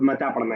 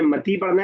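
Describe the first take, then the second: First: मता with a final long aa; alif reading. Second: मती with a final long ee; ya reading. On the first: Teacher contrasting readings for the class, मता ending in aa. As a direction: end मता on the aa sound. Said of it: "तो वो अलिफ पढ़ा जाएगा". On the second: Teacher contrasting readings for the class, मती ending in ee. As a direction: end मती on the ee sound. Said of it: "ये एक शॉर्टकट है समझने का". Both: Shown as a demonstration.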